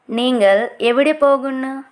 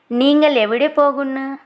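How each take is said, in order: Both takes have the same delivery.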